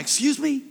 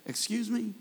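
First: Mock indignation. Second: A soft, sassy "Excuse me?"; hint of an offended widow, held back; mock attitude. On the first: Pastor imagining answering Jesus, mock indignant. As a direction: play the pastor taking offence, half joking. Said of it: "I would have been like". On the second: Grieving widow answering Jesus, mock sassy and soft. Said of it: "if this woman had a little attitude".

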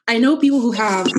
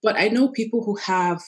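First: Crying. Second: Said in the usual way. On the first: Real, not acted. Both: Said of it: "I'm sorry I'm crying".

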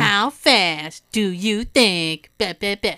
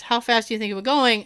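First: Extra slow mocking. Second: Rapid-fire, words run together fast; talking fast. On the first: Judge mocking the hard-of-hearing defendant, extra slow. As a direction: drag each word out slowly, condescending. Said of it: "he does it extra slow, like he's being an asshole". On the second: Retold or imitated. Officer firing a question at the driver, fast. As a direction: rattle the question off quickly. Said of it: "So he was talking fast".

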